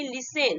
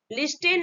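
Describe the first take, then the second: First: लिसन with a silent t, li-sen; correct pronunciation. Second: लिस्टेन with the t sounded, lis-ten; wrong pronunciation. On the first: Teacher gives students the right लिसन, t silent. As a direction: say लिसन and drop the t. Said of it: "इसको बोलेंगे हम". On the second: Teacher shows students the wrong way, लिस्टेन with t sounded. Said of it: "लिस्टेन नहीं". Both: Shown as a demonstration.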